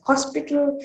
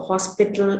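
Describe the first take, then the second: First: "hospital" pronounced kospital; k replacing h. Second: Said in the usual way. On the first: Shown as a demonstration. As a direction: open "hospital" on k rather than h. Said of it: "closest to the k sound". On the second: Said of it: "is pronounced as hospital".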